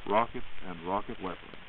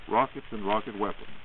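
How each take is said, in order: Both takes have the same delivery.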